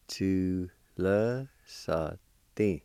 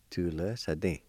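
First: "Tu le sa din" drawn out very slowly; syllable by syllable. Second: Said in the usual way. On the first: Shown as a demonstration. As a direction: hold each syllable of "Tu le sa din" apart. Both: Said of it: "It's pronounced like this".

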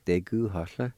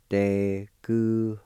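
First: Said in the usual way. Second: "Deguhohla" said slowly and carefully, each syllable clear; slow demo pronunciation. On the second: Shown as a demonstration. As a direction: model "Deguhohla" slowly for the class. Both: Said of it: "And it's pronounced like this".

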